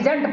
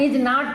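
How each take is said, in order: First: It is said as one contracted word. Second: It is said as two separate words. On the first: "इसको direct पढ़ना होगा तो इजेंट पढ़ेंगे" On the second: "break करके पढ़ना होगा तो इज नॉट पढ़ेंगे"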